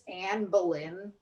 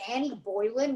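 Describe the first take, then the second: First: The name is said as Anne Boleyn. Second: The name is said as Annie Boylan. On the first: The speaker calls it right. "when her name is Anne Boleyn" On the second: The speaker calls it wrong. "did you say Annie Boylan"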